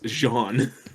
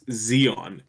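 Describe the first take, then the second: First: The name begins with a j sound. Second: The name begins with a z sound. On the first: The speaker calls it wrong. "Z E O N as Jean" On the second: The speaker calls it right. "there's no way you mispronounce Xeon"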